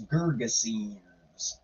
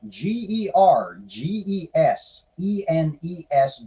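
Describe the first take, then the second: First: "Gergesenes" said slowly, lower and softer, syllable by syllable; slow careful pronunciation. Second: G E R G E S E N E S spelled out letter by letter. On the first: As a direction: sound out "Gergesenes" slowly and quietly. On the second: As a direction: read each letter of Gergesenes separately. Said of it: "I have no idea". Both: Shown as a demonstration.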